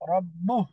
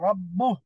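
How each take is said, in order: Both takes have the same delivery.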